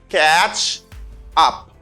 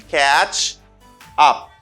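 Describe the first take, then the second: Both takes have the same delivery.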